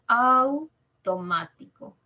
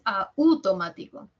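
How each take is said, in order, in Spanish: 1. La a en 'au' suena más fuerte que la u. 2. La u en 'au' suena más fuerte que la a. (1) "Au, diptongo. Suena más la A" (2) "No es automático"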